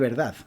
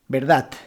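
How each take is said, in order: First: The word ends with a soft D sound. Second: The word ends with a T sound. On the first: "en vez de verdad" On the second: "en vez de utilizar la D, utilizar la T"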